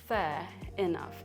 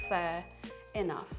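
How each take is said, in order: Both takes have the same delivery.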